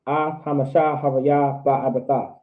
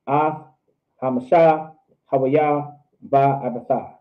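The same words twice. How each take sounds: First: Measured, flowing from word to word; fluent teaching demonstration, falling at the end; slow but fluent. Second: Slowly, word by word with gaps; slow teaching demonstration. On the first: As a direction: pace it evenly without long gaps. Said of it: "I'm still saying it slow, though". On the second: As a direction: separate each word with a clear pause. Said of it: "You can say it slow". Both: Shown as a demonstration.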